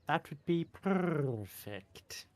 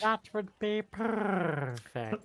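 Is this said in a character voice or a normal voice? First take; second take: normal; character. First: It is said in the speaker's normal voice. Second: It is said in a put-on character voice. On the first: The character being addressed cannot understand it. The speaker calls it wrong. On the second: The character being addressed can understand it. The speaker calls it right.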